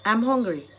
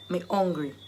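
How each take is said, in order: First: Said in the usual way. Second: "hungry" said the Jamaican way, h dropped; low-key Jamaican Patois, falling on "hungry". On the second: Shown as a demonstration. Teacher translating hunger for learners into Jamaican Patois. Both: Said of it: "I've given you the Jamaican dialect".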